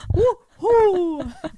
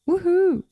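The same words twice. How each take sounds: First: It is said lively and excited. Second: It is said flat and monotonous. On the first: It sounds genuinely happy. "I'm not like" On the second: It sounds sarcastic. "it's a monotonous woohoo, so it sounds sarcastic"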